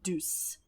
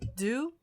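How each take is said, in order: First: It is said the English way, with a final s. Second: It is said the French way, without a final s. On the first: The speaker calls it right. "let's just do the English pronunciation" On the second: The speaker calls it wrong. "they knew the French word"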